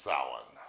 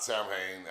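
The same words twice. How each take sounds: First: Samhain said "sow-in", M and H not sounded; Irish pronunciation. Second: Samhain said as spelled, "sam-hane"; mispronounced as spelled. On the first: Host corrects a common mistake, Samhain as "sow-in". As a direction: say Samhain as two syllables, "SOW-in". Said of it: "but it's pronounced Samhain". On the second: Host warns listeners of a common mistake, Samhain as "sam-hane". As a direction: say Samhain with the M and H sounded. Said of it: "It's not Samhain". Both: Shown as a demonstration.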